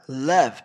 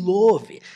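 First: The vowel is an open, unrounded 'uh' sound. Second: The vowel is a rounded 'o' sound. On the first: The speaker calls it right. "Nós falamos love, som do a" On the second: The speaker calls it wrong. "nós não falamos love e nem love"

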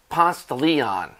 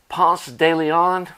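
First: The name is said in a Southern US pronunciation. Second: The name is said in a standard pronunciation.

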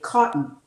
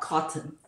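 First: The middle T is a glottal stop. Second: The middle T is a clear T. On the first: The speaker calls it right. "we often change it in North American accent into a glottal stop. So for instance, we will say cotton" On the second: The speaker calls it wrong. "and not cotton"

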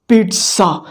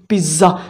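First: The middle sound has a clear T in it. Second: The middle sound has no T in it. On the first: The speaker calls it right. "The right pronunciation of this word is pizza. Pronounce T" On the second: The speaker calls it wrong. "this is wrong"

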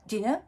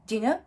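The two takes are said the same way.

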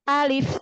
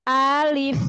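First: The word is said short and directly. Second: The word is drawn out with a swinging tune. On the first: The speaker calls it right. "tapi langsung sebutkan alif" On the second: The speaker calls it wrong. "Jangan alif, jangan diayun"

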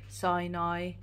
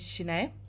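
First: The name does not end in 'e'. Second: The name ends in a plain 'e'. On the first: The speaker calls it wrong. "everybody calls me Sinai" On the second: The speaker calls it right. "So Korean AE spelling is E"

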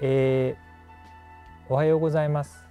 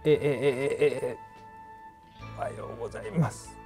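First: The voice is smooth and steady. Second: The voice breaks and stutters repeatedly.

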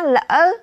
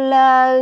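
First: The syllable rises with a break in the voice. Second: The syllable is said on a level pitch.

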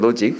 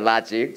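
First: The vowel is a rounded British o sound. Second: The vowel is an open American ah sound. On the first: "영국 발음을 했어요" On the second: "라직이야"

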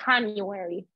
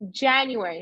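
First: It begins with a non-English J sound. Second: It begins with the English J sound. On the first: The speaker calls it wrong. "not January" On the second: The speaker calls it right. "Remember J in English"

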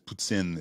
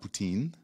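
First: The word is said with a French pronunciation. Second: The word is said with an English pronunciation. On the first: The speaker calls it right. "And it's poutine" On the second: The speaker calls it wrong. "It's not poutine. That's when an Anglophone is saying it"

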